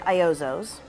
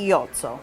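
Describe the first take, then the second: First: The name has an American English pronunciation. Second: The name has an Italian pronunciation. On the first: "in the U S we say Iozzo's" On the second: "in Italy we say Iozzo, because there's no really I in the Italian language"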